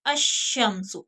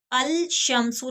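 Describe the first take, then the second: First: अशम्सु with l merged into a doubled sh; ash-shamsu, no lam; lam hidden. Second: अल शम्सु with the l clearly sounded; wrong al pronounced. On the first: (अशम्सु, लाम छुपाकर) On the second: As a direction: say अल शम्सु with a separate lam, as the mistake. (अल शम्सु, लाम ज़ाहिर (ग़लत)) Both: Shown as a demonstration. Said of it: "अल शम्सु नहीं पढ़ेंगे".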